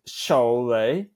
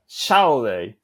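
First: The stress is on the last syllable. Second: The stress is on the first syllable. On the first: The speaker calls it right. "the stress comes maybe at the end" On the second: The speaker calls it wrong. "on the first syllable"

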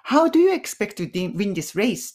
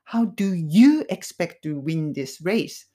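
First: The word you is not specially stressed. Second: The word you carries strong stress. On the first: "って言ってもいいんだけど" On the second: "このyou にストレスをかける。"

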